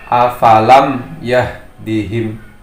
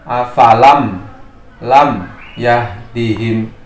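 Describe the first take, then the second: First: The end of afalam is held clearly, no echo. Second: The end of afalam is bounced with an echo. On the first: The speaker calls it right. "Jadi membacanya" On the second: The speaker calls it wrong. "Tidak boleh juga dipantulkan lam"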